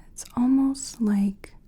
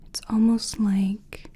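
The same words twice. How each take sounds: The two takes are said the same way.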